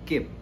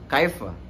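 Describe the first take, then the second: First: It is said in short Saudi dialect form. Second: It is said in full standard Arabic form. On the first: "Kalau di Saudi itu kif" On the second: "Kalau di Fusha itu menggunakan kaifa"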